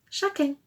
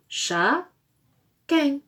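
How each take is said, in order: First: Said in the usual way. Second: "Chat", pause, "Quin", each syllable alone; rising "Chat", a gap, then falling "Quin"; split into syllables. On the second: Shown as a demonstration. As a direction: say the word in two separate pieces. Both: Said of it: "Dernière syllabe de requin".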